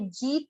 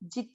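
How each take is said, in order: First: The vowel is drawn out long. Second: The vowel is kept short. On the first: The speaker calls it wrong. "ये जीत नहीं है" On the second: The speaker calls it right. "जी की मात्रा छोटी है, दीर्घ ना करें"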